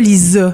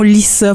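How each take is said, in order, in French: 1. La consonne du milieu est un z sonore. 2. La consonne du milieu est un s sifflant. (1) "pas Lisa" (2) "on prononce mon nom Lisa"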